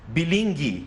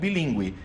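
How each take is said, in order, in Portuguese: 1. O u depois do g é mudo. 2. O u depois do g é pronunciado. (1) "sem o trema, você teria que ler" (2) "e não"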